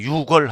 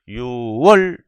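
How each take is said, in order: First: It is said as yukwol, with a k sound. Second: It is said as yuwol, without a k sound. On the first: The speaker calls it wrong. "절대 유월 하지 말아요. 쪽팔려요" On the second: The speaker calls it right. "숫자로 유월 일일"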